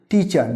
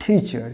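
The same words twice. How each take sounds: First: "টিচার" with unaspirated t, clear -ar; wrong pronunciation. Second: "টিচার" with a puff of air on t; correct pronunciation. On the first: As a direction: say "টিচার" flatly Bengali, ti-char. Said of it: "টিচার নয়". ("টিচার" চলতি উচ্চারণে, টি-চার) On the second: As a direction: say "টিচার" as thi-char, aspirated t. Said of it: "তখন উচ্চারণ হবে টিচার". ("টিচার" মহাপ্রাণ ট দিয়ে, ঠিচার) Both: Shown as a demonstration.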